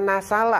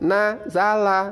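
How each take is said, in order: First: The middle consonant is a hissing s sound. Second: The middle consonant is a buzzing z sound. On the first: The speaker calls it wrong. "bukan nasala anakku" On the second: The speaker calls it right. "tetapi za, dua gigi bertemu"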